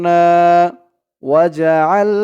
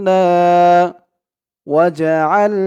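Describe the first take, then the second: The two takes are said the same way.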